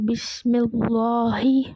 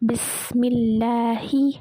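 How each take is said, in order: First: The l sound in Allah is heavy and thick. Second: The l sound in Allah is light and thin. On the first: The speaker calls it wrong. "அப்படி ஓதக்கூடாது" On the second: The speaker calls it right. "லைட்டாக ஓதணும்"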